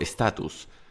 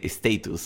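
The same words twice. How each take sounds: First: It is said with a non-British pronunciation. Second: It is said with a British pronunciation.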